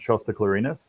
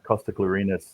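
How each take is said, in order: First: The name begins with a soft sh sound. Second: The name begins with a hard k sound. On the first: It sounds more like a dragon. The speaker calls it right. "I like to pronounce it Shosta Clarinus" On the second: It sounds cheesy. The speaker calls it wrong. "just hits my cheese meter a little too high"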